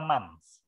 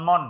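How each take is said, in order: First: The word ends with a clear 'ths' sound. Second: The word ends at 'mon' with no 'ths'. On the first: The speaker calls it right. "Ini dibaca months" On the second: The speaker calls it wrong. "Bukan mon ya. Kalau mon kan montok"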